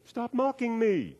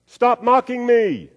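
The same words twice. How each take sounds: First: High, slow, soft echo. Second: High, loud, slow frustrated holler; angry yell. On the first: Canyon voice mimics the angry boy, distant echo. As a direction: throw it back faint, high and drawn out. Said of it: "And the voice said". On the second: Frustrated boy yells at the mocking voice, angry yell. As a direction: yell it high and stretched into the canyon. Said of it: "starting to get a little bit angry". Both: Acted.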